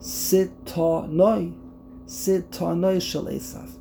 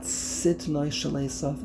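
First: The first word is said with three syllables. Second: The first word is said with two syllables. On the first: This follows the rules of grammar. "it's Sitonoi Shel Esav" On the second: This is how everyone usually says it. "It's not Sitnoi Shel Esav"

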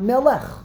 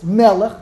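First: The stress is on the last syllable. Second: The stress is on the first syllable. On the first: The speaker calls it wrong. "not Melech" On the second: The speaker calls it right. "it's Melech"

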